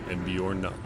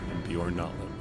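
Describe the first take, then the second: No difference in how they are said.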